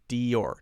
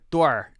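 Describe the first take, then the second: First: The name is said as two syllables. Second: The name is said as one syllable. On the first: The speaker calls it right. "Dior is how we say it. Two syllable word" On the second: The speaker calls it wrong. "It looks like door"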